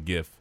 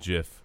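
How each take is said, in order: First: The word begins with a hard g sound. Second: The word begins with a j sound. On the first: This is the accepted pronunciation. The speaker calls it right. "it is now accepted that it is a gif" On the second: This sounds like the name of a peanut butter. The speaker calls it wrong. "I don't care if the creator said it's a gif. That's peanut butter"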